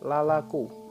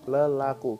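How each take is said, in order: First: The first syllable has a full 'a' vowel. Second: The first syllable has a weak schwa vowel. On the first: This is the literal doubled form. "dibaca dua kali, menjadi lalaku" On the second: This is how people usually say it. "dalam pelafalannya kita biasa menyebutkan sebagai lelaku"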